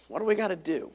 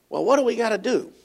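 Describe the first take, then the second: First: A quiet, searching echo of the question; softer repeat. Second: Said in the usual way. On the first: Shown as a demonstration. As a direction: drop to a near-hushed repeat of the question.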